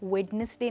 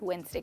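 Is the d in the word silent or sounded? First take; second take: sounded; silent. First: The d is sounded in the middle. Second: The d is silent in the middle. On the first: The speaker calls it wrong. "आप वेडनेसडे नहीं" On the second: The speaker calls it right. "But वेंसडे कहेंगे"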